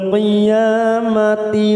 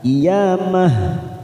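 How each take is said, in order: First: The word ends with a ti sound. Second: The word ends with a final h sound. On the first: The reciter continues without stopping. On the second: The reciter stops at this word.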